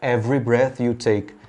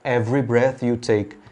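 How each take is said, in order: First: Every is shortened to two syllables, dropping a vowel. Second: Every is shortened to two syllables, dropping a vowel.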